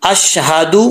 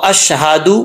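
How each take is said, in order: No difference in how they are said.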